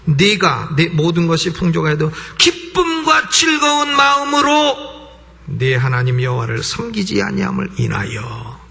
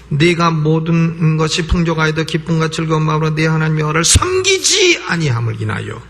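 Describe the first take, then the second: First: The stress falls on 기쁨과 즐거운 마음으로. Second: The stress falls on the word 섬기지. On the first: Serving must be done joyfully to bring blessing. "거기다 액센트를 두게 되면 하나님을 섬겨도 기쁨과 즐거운 마음으로 섬겨야" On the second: Failing to serve at all brings suffering. "섬기는 데다가 액센트를 딱 주면"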